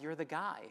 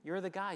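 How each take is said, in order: First: "You're the guy" with weight on guy, falling off at the end; recognising someone, leaning on "guy"; retold greeting. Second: "You're the guy" punched on you're, pitched up and a bit louder; excited repeat. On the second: Retold or imitated. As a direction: stress on you're, higher and louder. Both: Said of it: "I was like".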